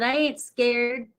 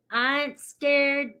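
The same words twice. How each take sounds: First: Said in the usual way. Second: Slow, higher slangy drawl; slang accent. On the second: Pretend. Host telling viewers retrograde is no worry, slang accent. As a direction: draw it out in a playful slang accent. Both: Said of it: "the slang and the accents".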